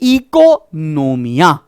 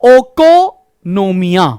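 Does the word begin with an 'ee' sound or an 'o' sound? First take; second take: ee sound; o sound. First: The word begins with an 'ee' sound. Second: The word begins with an 'o' sound. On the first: The speaker calls it right. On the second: The speaker calls it wrong.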